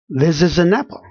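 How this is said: The words run smoothly into one another.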